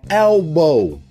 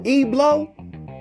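First: The l comes before the b. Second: The b and l sounds are swapped. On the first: The speaker calls it right. "That's elbow" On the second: The speaker calls it wrong. "that ain't no Eblo"

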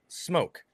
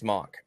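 First: The vowel is long, like in 'joke'. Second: The vowel is short, like in 'clock'. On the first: The speaker calls it right. "I say that's pronounced smoke" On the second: The speaker calls it wrong. "It's pronounced smock"

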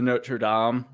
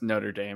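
First: The name is pronounced in a French style. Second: The name is pronounced in an American style. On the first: "In France, it's the Notre Dame" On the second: "it's Notre Dame Americanized"

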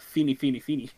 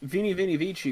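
First: It is said the way Germans would say it. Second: It is said with an English V and soft C.

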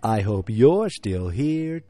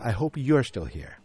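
First: It is said in a put-on announcer voice. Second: It is said in a plain, normal speaking voice.

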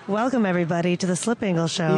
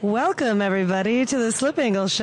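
First: The greeting is said without much excitement. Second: The greeting is said with more excitement.

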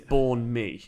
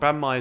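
First: The first word has a long 'born' vowel. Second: The first word has a short 'ban' vowel. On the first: This is supposedly the proper way to say it. The speaker calls it right. "But apparently it's born mi" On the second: This is the common way people say it. The speaker calls it wrong. "I'm pronouncing this wrong. Banh mi is how I think most people I've heard say it"

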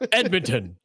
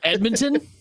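First: The pitch falls at the end, like a statement. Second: The pitch rises at the end, like a question. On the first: The speaker is confident in the answer. The speaker calls it right. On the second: The speaker is unsure of the answer. The speaker calls it wrong.

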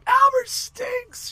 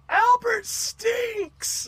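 First: It is said loudly and enthusiastically. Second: It is said timidly and hesitantly.

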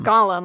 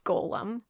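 First: It sounds like the fantasy character's name. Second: It does not sound like the character's name. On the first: The speaker calls it wrong. "It's not Gollum, like Lord of the Rings" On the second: The speaker calls it right. "it's Golem"

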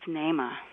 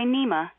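First: The first vowel sounds like 'ay'. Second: The first vowel sounds like 'ee'. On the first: The speaker calls it right. "That double E in the Swahili language has an A sound" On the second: The speaker calls it wrong. "don't say Nema"

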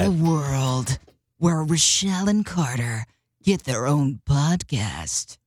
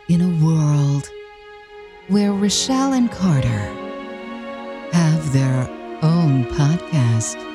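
First: It is said in an epic movie-trailer voice. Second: It is said in a dramatic soap-opera voice.

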